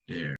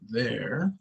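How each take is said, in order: First: It starts with a hard d sound. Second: It starts with a soft th sound. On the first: The speaker calls it wrong. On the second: The speaker calls it right.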